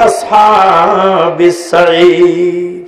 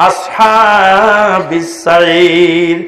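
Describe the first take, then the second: The two takes are said the same way.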